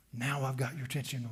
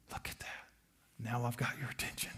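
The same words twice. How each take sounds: First: Said in the usual way. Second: Soft lower whisper, luring; tempter's whisper. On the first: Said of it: "repeated plainly after whisper". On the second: Acted. Tempter luring the listener, whispered softly. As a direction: whisper it to draw them in.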